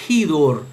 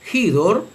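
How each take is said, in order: First: The word begins with a breathy h sound. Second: The same.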